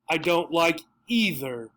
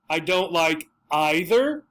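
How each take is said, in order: First: Either begins with an 'ee' vowel sound. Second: Either begins with an 'eye' vowel sound.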